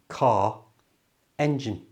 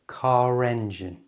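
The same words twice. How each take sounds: First: The words are separate with no R sound. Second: An R sound links the two words together. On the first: "on its own, that would just be car" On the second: "Can you hear that R on the end comes to life?"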